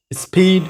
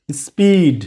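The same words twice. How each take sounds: First: "স্পিড" with a puff of air after the S; wrongly aspirated P. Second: "স্পিড" with no puff on P, falling tune; unaspirated P after S. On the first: Teacher showing beginners' common mistake, "স্পিড" with aspirated P. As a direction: release P in "স্পিড" with too much breath. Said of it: "this is totally wrong". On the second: Teacher giving the corrected form, "স্পিড" with unaspirated P. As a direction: hold back the breath on P in "স্পিড". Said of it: "aspiration হবে না". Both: Shown as a demonstration.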